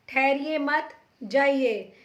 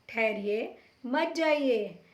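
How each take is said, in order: First: The pause comes after 'mat'. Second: The pause comes after 'thahariye'.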